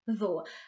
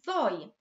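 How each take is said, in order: First: The word has the South Wales pronunciation. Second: The word is pronounced exactly as spelt. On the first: "in South Wales, we tend to pronounce it as ddo" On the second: "that's exactly how it's spelt"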